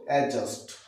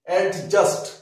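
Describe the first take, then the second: First: The d sound is left out before j. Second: The d sound is pronounced before j. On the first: The speaker calls it right. "আমরা বলবো অ্যাডজাস্ট" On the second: The speaker calls it wrong. "Wrong pronunciation"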